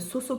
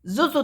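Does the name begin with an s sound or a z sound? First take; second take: s sound; z sound. First: The name begins with an s sound. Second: The name begins with a z sound. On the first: The speaker calls it wrong. "j'avais dit euh, Soso qui tricote. Non, non, ça, c'est quelqu'un d'autre" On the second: The speaker calls it right. "C'est Zozo Tricote. Z O Z O"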